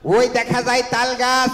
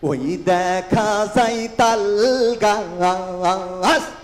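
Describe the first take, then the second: First: It is recited in a Chuadanga regional accent. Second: It is recited in a loud loudspeaker-announcer style. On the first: A comedian from Chuadanga is reciting it. "উনি চুয়াডাঙ্গার ভাষায় এরকম আবৃত্তি করতেন।" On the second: A party crew on a bus roof is reciting it. "বাসের ছাদে mic লাগাই নিয়ে যায়"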